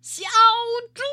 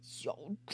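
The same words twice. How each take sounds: First: The name is shouted loudly. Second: The name is called at normal volume.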